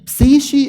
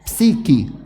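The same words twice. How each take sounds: First: The middle consonant is a soft ch/sh sound. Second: The middle consonant is a hard k sound. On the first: It is read as a word of Greek origin. "if it is Greek" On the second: It is read as a word of Coptic origin. "So you said it a k"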